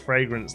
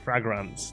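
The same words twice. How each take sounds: First: The first syllable does not sound like 'frag'. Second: The first syllable sounds like 'frag' in 'fraggle'.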